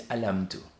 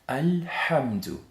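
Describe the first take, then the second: First: The throat h sound is left out. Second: The throat h sound is clearly pronounced. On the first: The speaker calls it wrong. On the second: The speaker calls it right.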